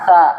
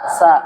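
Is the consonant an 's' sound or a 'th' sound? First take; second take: th; s. First: The consonant is a soft 'th' sound. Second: The consonant is a plain 's' sound. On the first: The speaker calls it right. "huruf sa itu keluarnya seperti huruf zal" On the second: The speaker calls it wrong. "Jadi bukan sa"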